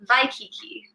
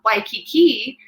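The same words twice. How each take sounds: First: The word begins with a V sound. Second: The word begins with a W sound. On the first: "it's actually going to be Waikiki" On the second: "if we were thinking about Waikiki"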